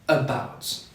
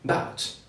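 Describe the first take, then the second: First: The first vowel sound is clearly said. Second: The first vowel sound is left out. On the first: The speaker calls it right. "we say about" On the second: The speaker calls it wrong. "we never say bout"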